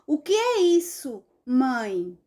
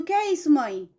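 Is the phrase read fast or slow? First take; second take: slow; fast. First: It is read slowly, with small pauses. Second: It is read quickly, words running together. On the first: The speaker calls it right. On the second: The speaker calls it wrong. "Rápido"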